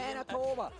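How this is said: It is said in a put-on regional accent.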